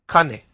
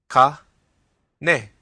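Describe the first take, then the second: First: The word is said smoothly as one unit. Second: The word is split into separate syllables. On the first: "say it again" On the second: "break it up into syllables"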